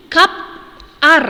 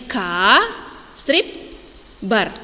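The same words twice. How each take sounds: First: Kap ar split in the wrong place, with a pause after kap; teacher showing a mistaken split; wrong syllable split. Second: Ka, strip, bar split at the correct syllable boundary; teacher showing the correct split. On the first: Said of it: "Salah itu". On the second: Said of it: "Ini yang benarnya". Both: Shown as a demonstration.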